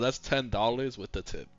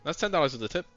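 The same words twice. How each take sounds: First: The phrase is spoken slowly and clearly. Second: The phrase is rushed out very quickly. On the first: The tip is openly mentioned to the customer. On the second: The tip is slipped past the customer unnoticed.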